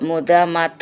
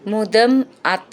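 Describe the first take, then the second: First: The two words are merged into one. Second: The two words are said separately.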